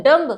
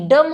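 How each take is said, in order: First: डम्ब with the b sounded; wrong pronunciation. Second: डम with silent b, ending on m; correct pronunciation. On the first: Teacher imitates children saying डम्ब with b. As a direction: say डम्ब with a final b. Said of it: "बहुत से बच्चे इसको बोलते हैं डम्ब". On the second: Teacher models the right word, डम without b. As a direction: say डम, no b at the end. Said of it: "डम होता है". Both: Shown as a demonstration.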